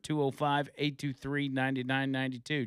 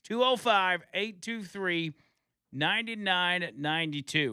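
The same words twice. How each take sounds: First: The number is read quickly. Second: The number is read slowly.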